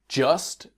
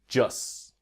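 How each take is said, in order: First: The final T sound is pronounced clearly. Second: The final T sound is dropped, said quickly.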